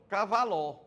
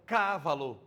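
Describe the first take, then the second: First: "cavaló" as ca-va-LÓ, open final ó stressed; stress on last syllable. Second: "cavalo" as CA-va-lo, first syllable stressed. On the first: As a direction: push the stress onto the end of "cavaló". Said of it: "A outra, cavaló". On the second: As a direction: punch the opening ca of "cavalo". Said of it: "A outra, cavalo". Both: Shown as a demonstration.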